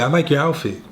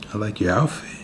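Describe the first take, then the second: First: It is said in a plain, friendly way. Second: It is said in a leering, creepy way. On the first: A normal, welcome compliment. The speaker calls it right. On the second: The speaker seems to be plotting something. The speaker calls it wrong.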